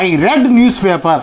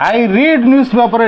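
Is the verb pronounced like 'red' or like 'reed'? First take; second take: red; reed. First: The verb has a short 'e' vowel. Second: The verb has a long 'ee' vowel. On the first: The reading is already finished in the past. "Past టెన్స్లో I రెడ్ news paper అని మనం చెప్పాలి" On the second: The reading happens habitually in the present. "మామూలుగా I రీడ్ అంటే present టెన్స్లో రీడ్ అని మనం పలకాల"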